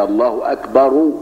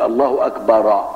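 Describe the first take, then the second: First: الله أكبر said slowly, أكبر with a short a and the r given a u vowel; slow teaching demo of أكبر ending in -ru; correct pronunciation. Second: الله أكبر said slowly with أكبر ending in an open -ra; slow mocking الله أكبرَ with the r opened; imitating wrong adhan. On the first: Shown as a demonstration. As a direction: show the right way: الله أكبرُ with the r in damma. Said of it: "بالضم". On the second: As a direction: mimic the muezzin's wrong أكبر ending in a fatha. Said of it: "هو يقول".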